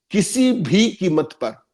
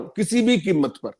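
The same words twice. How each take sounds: First: किसी भी कीमत पर spelled out slowly, each word weighted; emphatic, slow. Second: किसी भी कीमत पर at normal pace, weight on भी; repeated, stress on भी. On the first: Panelist warning the BJP will hold on at any cost, slow emphatic. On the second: Panelist repeating his point for the debate, firm stress on भी. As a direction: restate किसी भी कीमत पर quickly, leaning on भी. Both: Real, not acted. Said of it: "repeat कर रहा हूं".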